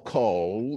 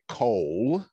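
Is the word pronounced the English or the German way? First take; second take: German; English. First: The word is pronounced the German way. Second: The word is pronounced the English way. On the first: The name is treated as German. "or German" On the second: The name is treated as English. "is it English"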